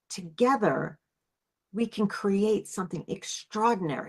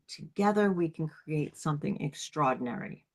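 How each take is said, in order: First: It has an uplifted, visionary, aspirational energy. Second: It has a calm, grounded goddess energy.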